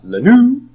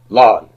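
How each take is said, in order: First: The stress is on the last syllable. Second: The stress is on the first syllable. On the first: The speaker calls it wrong. "It's not lanu" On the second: The speaker calls it right. "The only time it's on the non-final syllable is in lanu"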